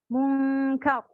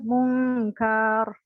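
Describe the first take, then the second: First: The second syllable is cut off short. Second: The vowel of the second syllable is drawn out. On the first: The speaker calls it right. "langsung mati" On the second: The speaker calls it wrong. "Bukan mungkar kayak gitu"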